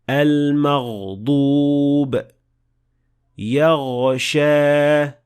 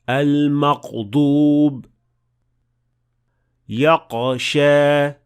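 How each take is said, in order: First: The throat consonant flows smoothly as continuous friction. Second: The throat consonant is a stop, cut off abruptly. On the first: The speaker calls it right. "the sound of ghain should flow smoothly" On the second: The speaker calls it wrong. "the sound will stop and it will sound more like a qaf"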